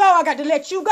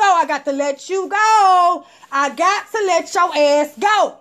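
First: Said in the usual way. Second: Slow, stretched goodbye; drawn-out dismissal. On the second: Retold or imitated. Letting the ex go for good, slow. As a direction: stretch each word out.

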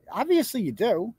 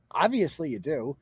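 First: Pointed rebuttal. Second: Lower-pitched, settled repeat; dry rebuttal. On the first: Streamer rebuts a man denying he knows her, pointed. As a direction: swing up on OBVIOUSLY to contradict. Rebutting his claim, said twice. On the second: Streamer repeats the rebuttal to the man, dry. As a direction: drop OBVIOUSLY low, as settled fact. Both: Real, not acted.

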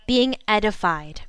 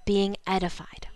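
First: Said in the usual way. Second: Unvoiced whisper of the answer; whispered echo. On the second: Shown as a demonstration. Preacher whispering the answer back to the congregation. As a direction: breathe it out as a hushed echo. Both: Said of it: "That is called what?".

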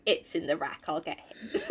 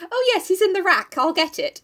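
First: Said in the usual way. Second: High, flustered blurting. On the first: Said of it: "Instead of saying". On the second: Acted. Meg answering Mister Brooks at the door, acted flustered. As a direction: play flustered, muddling the words in a high voice. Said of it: "Meg gets all flustered and she goes".

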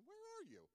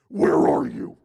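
First: "Where are you?" asked light and high, a plain innocent question; simple question. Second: "Where are you?" barked very loud and low, "are" hit hard; angry demand. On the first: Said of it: "rather than hearing the simple question". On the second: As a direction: snap it like an accusation. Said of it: "what I hear in my head is". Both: Shown as a demonstration.

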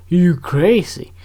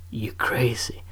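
First: "You crazy" drawn out slowly and louder, rising on "You"; slow emphatic. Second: A soft whispered "you crazy". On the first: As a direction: stretch "You crazy" out and lean on "You". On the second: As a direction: whisper "you crazy" under your breath. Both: Shown as a demonstration.

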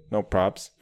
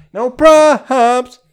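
First: Said in the usual way. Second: High, loud mock shout; No props! yelled high and loud. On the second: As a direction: belt out No props! in a high yell. Shouting over music.

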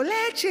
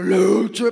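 First: High shouted leche; kid shouting. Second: Low, loud bellowed leche; booming shout. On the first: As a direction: yell leche like the older kid. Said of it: "uno gritando". (grito agudo de niño pidiendo leche) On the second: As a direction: bellow leche like the little one. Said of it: "y el otro". (grito grave y fuerte de leche) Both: Retold or imitated.

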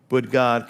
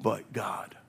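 First: "But God" called out louder at normal pitch; proclaiming. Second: Hushed, breathy "But God" on a falling tune; a quiet, reverent whisper of "But God". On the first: Refrain repeated at full voice. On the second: Dramatic whispered refrain. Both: Acted.

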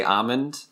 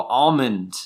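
First: "almond" as "AH-mund", silent L; Massachusetts-style "almond", "AH-mund"; own pronunciation. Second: "Almond" as "ALL-mund", L sounded; imitating a friend's corrective "ALL-mund"; friend's correcting pronunciation. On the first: Shown as a demonstration. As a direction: say "almond" with an open ah and no L. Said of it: "Everybody makes fun of me because I say". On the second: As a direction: say "Almond" with a round "all" at the start. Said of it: "Haley gets really mad at me. She'll go".

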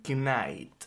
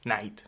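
First: Knight said with a spoken K, k-nait; K pronounced. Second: Knight said as nait, K silent. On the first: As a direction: Knight with the K sounded before the n. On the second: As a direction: Knight starting straight on the n sound. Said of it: "la K es muda". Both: Real, not acted.

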